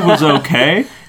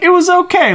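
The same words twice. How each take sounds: First: It sounds flat and disappointed. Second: It sounds upbeat and smiling.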